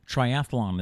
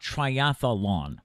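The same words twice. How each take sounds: First: No extra vowel is added before the last syllable. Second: An extra vowel is added before the last syllable. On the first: The speaker calls it right. "triathlon is the is the actual word" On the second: The speaker calls it wrong. "do not add a. It's not triathlon"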